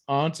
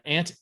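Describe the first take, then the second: First: AUNT with an open "ah" vowel; aunt as "ahnt". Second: AUNT with a short flat a, like "ant". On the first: Answering which way they say it, aunt as "ahnt". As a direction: say aunt to rhyme with "haunt". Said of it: "or aunt?". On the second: Answering which way they say it, aunt as "ant". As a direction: say aunt to rhyme with "pant". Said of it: "Did you say aunt". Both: Shown as a demonstration.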